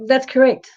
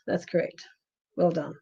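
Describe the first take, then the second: First: High, louder "that's correct"; lively "that's correct", up high; bright confirmation. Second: "That's correct" breathed out as a soft whisper; hushed, voiceless "That's correct" as an aside. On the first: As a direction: confirm it with a lift, pleased. Confirming a viewer's answer. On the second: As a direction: repeat "That's correct" under your breath. Repeating the confirmation aside. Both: Real, not acted.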